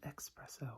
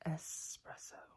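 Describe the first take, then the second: First: The word begins with an 'ex' sound. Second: The word begins with an 'es' sound. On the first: The speaker calls it wrong. "A lot of people pronounce it espresso, which is understandable" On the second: The speaker calls it right. "But it's espresso. Gotta get that S in there"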